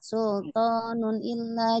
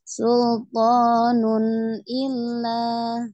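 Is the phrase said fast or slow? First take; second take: fast; slow. First: The phrase is said fast, running the sounds together. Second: The phrase is said slowly, with each sound full. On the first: The speaker calls it wrong. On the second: The speaker calls it right.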